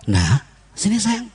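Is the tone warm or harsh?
warm. It is said warmly, with a smile.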